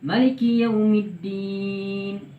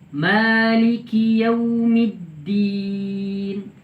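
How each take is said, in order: First: The vowel after the m is kept short. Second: The vowel after the m is held long.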